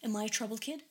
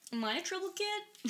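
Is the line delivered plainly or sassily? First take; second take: plainly; sassily. First: The line is said fairly plainly, less sassy. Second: The line is said in an exaggerated, sassy way. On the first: "exactly how I heard it in my brain" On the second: "he was slightly more sassy"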